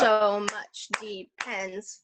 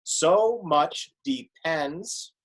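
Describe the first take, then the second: First: "So much depends" very slow, each syllable clapped apart; clapping the line for students, slow and even. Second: "So much depends" slow, one beat per syllable; counting beats on the fingers, very slow and even. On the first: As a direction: clap out "So much depends" slowly, beat by beat. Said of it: "we could clap it too". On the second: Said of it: "let's take a look at it line by line". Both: Shown as a demonstration.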